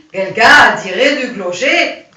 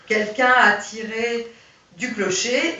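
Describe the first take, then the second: First: Mock German accent, much louder; a heavy put-on German accent. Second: Said in the usual way. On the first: Shown as a demonstration. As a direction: say it like a German soldier with a thick German accent. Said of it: "il dit ... comme ça". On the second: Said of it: "au lieu de dire".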